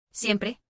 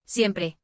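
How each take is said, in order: First: "Siempre" with a questioning rise at the end; echo question. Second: "Siempre" with a falling, final tune; plain statement. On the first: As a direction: ask "Siempre" back, checking the answer. Doctor echoes the answer as question. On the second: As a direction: say "Siempre" as a settled answer, pitch dropping. Child answers the doctor's question. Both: A narrator's reading.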